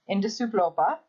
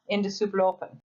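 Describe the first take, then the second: First: The final n of the last word is dropped. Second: The final n of the last word is pronounced. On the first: The conversation is casual. "in a casual conversation, you would not pronounce the final N" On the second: The conversation is serious. "you would pronounce the final N"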